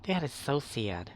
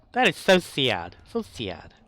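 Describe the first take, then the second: First: Said in the usual way. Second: Louder mock lament; mock-sad outburst at the game. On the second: Real, not acted. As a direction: belt out the disappointment. Reacting loudly to game.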